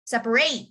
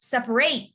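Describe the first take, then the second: First: The last syllable is a full "ate" sound. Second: The last syllable is a full "ate" sound.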